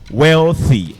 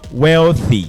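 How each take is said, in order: First: The 'th' is a voiceless sound. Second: The same.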